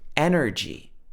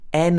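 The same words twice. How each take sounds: First: It is said in an American accent. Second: It is said in a British accent. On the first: "we've got this er sound, but it's in the middle of the word" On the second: "But in the British accent, this would be energy"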